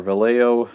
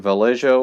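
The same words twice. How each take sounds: First: Vallejo said the other way; second way of saying Vallejo; alternative pronunciation. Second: Vallejo said one of two ways; first way of saying Vallejo; first pronunciation variant. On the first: Painter offering viewers another way to say a brand, alternative pronunciation. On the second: Painter offering viewers one way to say a brand, first pronunciation variant. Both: Shown as a demonstration. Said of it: "however you wanna pronounce it".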